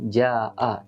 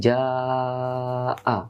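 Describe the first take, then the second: First: The long vowel is held only briefly. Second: The long vowel is held for four counts. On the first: The speaker calls it wrong. "dibaca dia tidak boleh ja'a" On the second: The speaker calls it right. "tapi ja'a, empat harokat"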